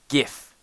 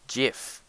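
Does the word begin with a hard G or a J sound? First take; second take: hard G; J sound. First: The word begins with a hard G sound. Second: The word begins with a J sound. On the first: The speaker calls it right. "It's a G. Right? GIF. G. IF. Not J" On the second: The speaker calls it wrong. "Some of you pronounce it as GIF, which is incorrect. It's not spelt with a J"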